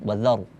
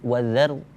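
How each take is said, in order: First: The r is pronounced thick and heavy. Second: The r is pronounced thin and light. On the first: The speaker calls it right. "baca tebal" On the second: The speaker calls it wrong. "kita baca tipis wazar, wazar tidak juga"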